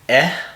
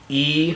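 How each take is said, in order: First: The vowel is the short sound, like eh. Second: The vowel sounds like the letter's name. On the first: "eh for short" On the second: "E for long"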